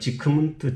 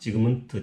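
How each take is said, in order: First: The g is devoiced to a k sound. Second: The g is kept as a voiced g sound. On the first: This is the actual German pronunciation. "실제 발음이 ... 지크문트가 된 거죠" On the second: This is a simplified pronunciation for convenience. "저는 그냥 편의상 이렇게 발음합니다"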